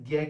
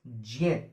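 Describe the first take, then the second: First: The syllable sounds like 'gya'. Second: The syllable sounds like 'jnya'. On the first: The speaker calls it wrong. "आप भी इसे ज्ञ ज्ञानी बोल देते हैं" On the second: The speaker calls it right. "शुद्ध उच्चारण है इसका ज्ञ"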